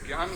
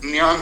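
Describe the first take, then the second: First: ज्ञान said as "gyaan", starting on g; common mispronunciation. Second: ज्ञान said as "nyaan", nasal start without g; pure Sanskrit pronunciation. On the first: Teacher showing the wrong everyday saying, ज्ञान as "gyaan". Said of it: "उस शब्द का उच्चारण ज्ञ है ही नहीं". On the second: Teacher correcting to pure Sanskrit, ज्ञान pronounced "nyaan". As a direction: open ज्ञान on a ny sound. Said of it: "ऐसा शुद्ध Sanskrit". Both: Shown as a demonstration.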